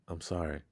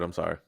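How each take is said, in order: First: The apology sounds earnest and sincere. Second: The apology sounds offhand and dismissive. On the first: The speaker really means the apology. The speaker calls it right. "You believe that way more" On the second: The speaker is not really sorry. The speaker calls it wrong. "You don't believe that shit, do you?"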